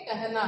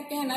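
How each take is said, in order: First: कहना with short open 'a' before the h, 'kah-naa'; correct pronunciation. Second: कहना with an 'e' in the first syllable, 'keh-naa'; as it sounds. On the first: Teacher giving students the right way to say it, correct pronunciation. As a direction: say कहना as 'kah-naa', each vowel clear. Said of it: "आप क्या उच्चारण करोगे". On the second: Teacher showing students what they seem to hear, as it sounds. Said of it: "लेकिन आपको ये सुनाई देता है". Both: Shown as a demonstration.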